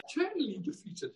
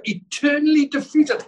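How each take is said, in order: First: Soft echo. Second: Preaching shout. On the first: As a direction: drop to a much softer, hushed repeat. Quiet echo after the shout. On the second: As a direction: belt it out high and loud. Preacher climaxes on victory. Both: Acted.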